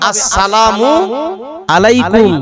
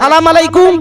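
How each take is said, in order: First: Every syllable is pronounced in full. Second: The opening syllables are dropped and clipped. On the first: The speaker calls it right. "সালামটা হবে আসসালামু আলাইকুম, ভালোভাবে সালাম দিতে হবে" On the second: The speaker calls it wrong. "আর আমরা সালাম দেই"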